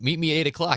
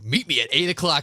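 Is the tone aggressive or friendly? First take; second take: friendly; aggressive. First: It sounds friendly and casual. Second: It sounds aggressive and threatening.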